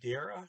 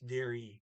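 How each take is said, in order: First: The word ends in a weak 'uh' sound. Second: The word ends in an 'ee' sound. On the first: The speaker calls it wrong. "Normal rules, trailing E is an uh" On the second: The speaker calls it right. "the double E sound and then E"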